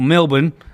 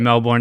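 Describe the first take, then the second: First: It is said in an Australian accent. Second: It is said in an American accent.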